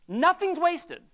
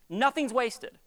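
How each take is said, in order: First: NOTHING'S WASTED said higher and louder after a long pause; emphatic repeat. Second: Said in the usual way. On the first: Shown as a demonstration. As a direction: press hard on Nothing's wasted.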